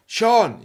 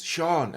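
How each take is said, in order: First: Imitating a louder, higher second call; insistent call. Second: Said in the usual way. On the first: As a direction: call up to someone who hasn't answered. Customer calls him a second time.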